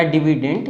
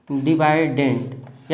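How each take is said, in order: First: डिविडेंड said as di-vi-dend, with a short i; alternative pronunciation. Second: डिविडेंड said as di-VAI-dend, with a long eye vowel; alternative pronunciation. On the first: Teacher offers students the second option, डिविडेंड with short "vi". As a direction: say डिविडेंड with "vi" in the middle. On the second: Teacher offers students the first option, डिविडेंड with an "eye" sound. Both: Shown as a demonstration. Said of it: "जो भी बोल सकते हो".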